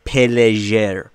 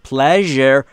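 First: An extra vowel is inserted between p and l. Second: The p and l are joined without a vowel. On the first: The speaker calls it wrong. "نباید بگیم pleasure" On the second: The speaker calls it right. "صدایی وجود نداره بین P و L"

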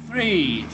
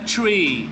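First: It starts with a th sound. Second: It starts with a plain t sound. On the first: The speaker calls it right. "é three. Three, lembra do TH sound" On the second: The speaker calls it wrong. "não é tree"

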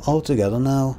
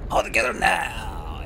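First: It is said in a Liverpudlian accent. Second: It is said in a put-on American accent. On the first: It is how the singer would normally talk. "That was Liverpudlian" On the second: It imitates a singer's stage talk. "He kind of speak like that"

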